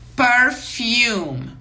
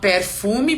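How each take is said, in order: First: It is pronounced with English sounds. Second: It is pronounced with Portuguese sounds. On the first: The speaker calls it right. "em inglês nós pronunciamos perfume" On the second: The speaker calls it wrong. "as pessoas falam perfume porque escreve em português do mesmo jeito"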